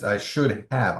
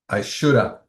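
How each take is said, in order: First: The word have is said in full. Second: Have is reduced to a short uh sound. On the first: The speaker calls it right. "It's I should have" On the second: The speaker calls it wrong. "It's lazy"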